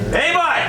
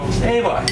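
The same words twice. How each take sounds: First: It is said as a friendly hello. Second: It is said as a calm, agreeing reply. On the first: The speaker is saying hello to someone. The speaker calls it wrong. "It's not a greeting" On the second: The speaker agrees with what was said. The speaker calls it right. "you're agreeing with someone"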